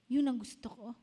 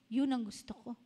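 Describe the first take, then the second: No difference in how they are said.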